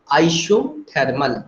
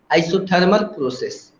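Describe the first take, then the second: First: isothermal drawn out slowly, syllable by syllable; slow teacherly repetition of isothermal; slow spelled-out term. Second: Said in the usual way. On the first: Shown as a demonstration. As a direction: say isothermal slowly so students catch each syllable.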